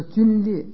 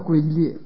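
First: The first syllable is pronounced jun. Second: The first syllable is pronounced gui. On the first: The speaker calls it right. "叫皲裂" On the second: The speaker calls it wrong. "不能叫龟裂"

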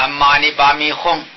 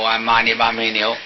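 First: The last syllable is pronounced hong. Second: The last syllable is pronounced niu. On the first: The speaker calls it right. "你念轰啊" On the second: The speaker calls it wrong. "他念安玛尼巴米牛，应该是轰啊"

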